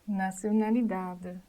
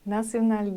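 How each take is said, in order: First: The final vowel is heard softly at the end. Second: The word ends on a consonant with no vowel. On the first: The speaker calls it right. "I pronunciate letter E with a sound between letter E and Y" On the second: The speaker calls it wrong. "Otherwise, believe me or not, you will say it in Spanish"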